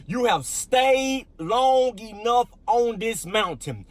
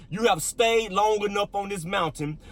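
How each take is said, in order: First: "long enough" drawn out slowly and pitched high; emphatic rereading. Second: Said in the usual way. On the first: Real, not acted. Pastor rereads today's key verse, "long enough" slow, high and emphatic. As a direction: stretch "long enough" and hold it up high before dropping on "this mountain".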